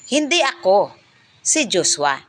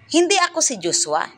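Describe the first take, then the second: First: There is a pause right after ako. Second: There is no pause until the end. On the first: The speaker did not do it; Joshua did. "ang hinto ay nasa ako" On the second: The speaker denies being Joshua. "nasa hulihan ang hinto"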